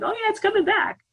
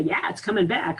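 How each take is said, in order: First: Much higher mock-eager voice for the mind; a cartoonish mind voice, high and eager. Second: Said in the usual way. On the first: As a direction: play the mind egging you on, pitch jumped way up. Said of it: "'cause the mind's like".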